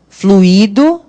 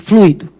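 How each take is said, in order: First: The I is stressed, forming its own syllable. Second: The I is weak, gliding after the U. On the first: "Em fluido, qual é a sílaba tônica? O I" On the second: "Porque o I é fraquinho agora"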